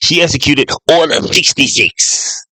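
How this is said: It is said in an Emperor Palpatine voice.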